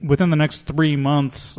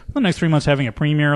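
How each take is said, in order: First: Slow, deliberate. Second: Quick, offhand. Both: Shown as a demonstration. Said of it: "cast and crew is all breathing a sigh of relief".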